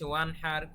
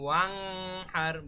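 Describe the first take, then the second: First: The n is short and clear, no hum. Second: The n is held with a nasal hum. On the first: The speaker calls it right. "খুব স্পষ্ট, একদম direct" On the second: The speaker calls it wrong. "আমরা কিন্তু ওয়াং হার বা ওয়ান হার এরকম বলি নাই"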